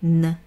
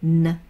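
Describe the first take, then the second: No difference in how they are said.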